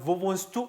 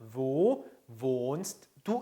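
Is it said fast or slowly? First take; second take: fast; slowly. First: It is said fast and run together. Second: It is said slowly and clearly.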